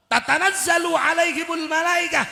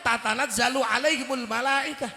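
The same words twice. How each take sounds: First: Loud recitation. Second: Said in the usual way. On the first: Shown as a demonstration. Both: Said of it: "Kabeh niku kan masuk malaikat".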